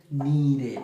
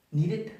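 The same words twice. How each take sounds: First: "needed" as need-id, no hard T; correct -id ending. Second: "needed" ending in a hard t, "need-it"; higher "needed", closed on a crisp T; wrong final T. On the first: Teacher models the right form, "needed" with -id ending. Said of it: "van a ser id". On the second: Teacher demonstrates bad English, "needed" with final T. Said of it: "como con T al final". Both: Shown as a demonstration.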